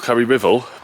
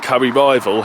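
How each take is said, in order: First: The second word starts like the word 'river'. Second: The second word does not sound like 'river'. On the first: The speaker calls it wrong. "I always used to pronounce it Rivel" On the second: The speaker calls it right. "it did mean Curry Rival"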